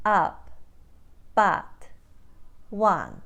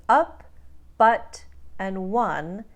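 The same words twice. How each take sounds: First: Ukrainian "Up, but, one" with wide AH vowels; Ukrainian accent. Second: Said in the usual way. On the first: Shown as a demonstration. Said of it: "become ah". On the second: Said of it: "That means up, but, and one become ah".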